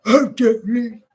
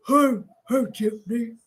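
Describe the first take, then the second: First: Loud put-on male greeting; mimicking husband. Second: Mimicking husband. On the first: Settling on how husband went, loud imitation. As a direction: punch out his hello in a mock voice. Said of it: "so I think he went". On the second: Asking babe if he said it so, restrained imitation. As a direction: try out his hello in a put-on voice. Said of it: "You say it like that, babe?".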